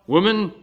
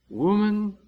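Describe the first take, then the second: First: The word is said in a cold, blunt way. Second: The word is said in a warm, tender way. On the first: It is a curt, distant address. The speaker calls it wrong. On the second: It is a loving address to a dear mother. The speaker calls it right. "in the most endearing terms"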